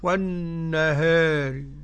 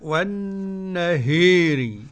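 First: The long a is slightly tilted toward e. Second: The long a is strongly tilted toward i. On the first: "قرأ بالتقليل قولا واحدا ورش" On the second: "والإمالة"

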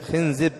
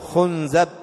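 First: The vowels are i then i. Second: The vowels are u then a. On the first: The speaker calls it right. "وأيضا يجوز كسر الزاي" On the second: The speaker calls it wrong. "ويجوز ضمها"

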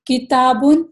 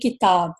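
First: The word ends with a final n sound. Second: The word ends without a final n sound. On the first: The reading continues past this word. "جیسے یہاں پر مثال ہے کتابن" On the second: The reading stops on this word. "اگر مجھے وقف کرنا پڑے تو میں کہوں گی کتاب"

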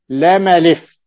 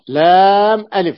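First: Alif links smoothly without a glottal stop. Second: Alif starts with a clear glottal stop. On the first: The speaker calls it right. "والصحيح لام ألف" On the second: The speaker calls it wrong. "يعني بهمزة قطع"

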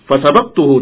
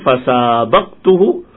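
First: The vowel after the s is kept short. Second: The vowel after the s is drawn out long. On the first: I beat him in the race. "Kalau tanpa dipanjangkan sinnya, maknanya mengalahkan" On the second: I raced against him. "Yang pertama sinnya panjang"

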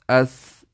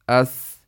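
No difference in how they are said.

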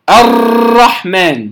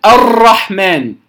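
No difference in how they are said.

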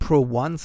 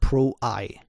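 First: The last part is said as the number one. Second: The last part is said as the word eye. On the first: The letter is read as a Roman numeral. The speaker calls it wrong. "Nicht Pro 1" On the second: The letter stands for image. The speaker calls it right. "sondern Pro Eye"

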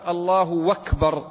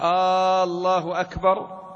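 First: The opening vowel is short, with w before akbar. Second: The opening vowel is drawn out like a question. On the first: It states that God is greatest. "بدل الهمزة واو" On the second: It asks whether God is greatest. "هذا يستفهم"

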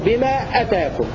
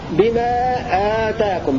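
First: The vowel after the glottal stop is short. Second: The vowel after the glottal stop is long. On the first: What has come to you. "بقصر الهمزة وبحذف الألف" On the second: What has been given to you. "بألف بعد الهمزة وتمد مد بدل"

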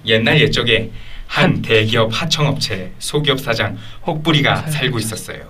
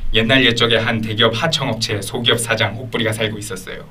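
First: The pitch moves with moderate, controlled melody. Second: The pitch stays flat with little melody throughout. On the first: It balances polish with liveliness. The speaker calls it right. "줄타기 하듯이 막 하는 거야" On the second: It sounds polished but dull. The speaker calls it wrong. "아예 플랫하게 하면 근데 너무 재미가 없는 거야"

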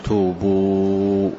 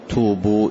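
First: The final vowel is stretched for about four beats. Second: The final vowel is held only briefly. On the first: "ولك أن تمد 4 حركات" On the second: "فلك أن تقول توبوا إلى الله"

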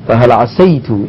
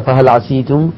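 First: The vowel after the s is 'a'. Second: The vowel after the s is 'i'. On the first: "بفتح السين هذا أفصح" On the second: "لو كسرت فقلت فهل عسيتم صحيح ليس خطأ"

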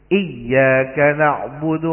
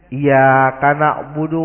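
First: The doubled y is held briefly and clearly. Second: The doubled y is rushed and barely doubled. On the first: The speaker calls it right. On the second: The speaker calls it wrong.

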